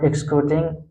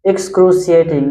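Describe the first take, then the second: First: Excruciating clipped to ex-kroo-ting, the middle syllables dropped; wrong pronunciation. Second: Excruciating with every syllable, ex-KROO-shee-ay-ting; correct pronunciation. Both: Shown as a demonstration. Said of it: "not excruciating".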